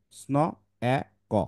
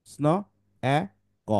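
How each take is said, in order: Both takes have the same delivery.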